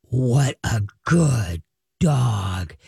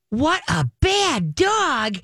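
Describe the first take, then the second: First: Deep, drawn-out, ominous dog talk; low, slow tones. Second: High, slow sing-song coo; sweetly drawn-out high-pitched dog talk; high happy scolding. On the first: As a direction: praise growled low and very slowly. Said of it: "Low, slow tones, you're ticked". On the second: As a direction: coo the scolding as if it were praise. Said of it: "your everything is your voice". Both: Shown as a demonstration.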